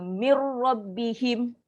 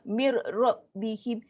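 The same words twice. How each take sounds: First: It flows smoothly with no break. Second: It is broken up with a catch. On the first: The speaker calls it right. "masuk sekali" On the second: The speaker calls it wrong. "jangan ... dia macam tersangkut-sangkut"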